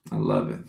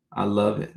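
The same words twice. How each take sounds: First: "I love it" dropped very low and deep; deep jokey echo of "I love it"; deep mock voice. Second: Said in the usual way. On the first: Shown as a demonstration.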